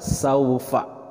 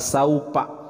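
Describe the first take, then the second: First: The middle consonant is an f sound. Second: The middle consonant is a p sound. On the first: The speaker calls it right. "yang tepat adalah" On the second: The speaker calls it wrong. "huruf fa juga jangan sampai tertukar. Bukan"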